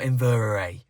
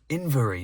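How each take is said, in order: First: The name ends with an 'air-ee' sound. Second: The name ends with a plain 'ee' sound. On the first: The speaker calls it wrong. "I butchered that so much" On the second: The speaker calls it right. "it's actually inverie"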